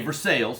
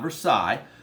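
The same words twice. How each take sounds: First: It is said the local Kentucky way. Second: It is said the original French way. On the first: "in Kentucky, we say Versailles" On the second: "not Versailles"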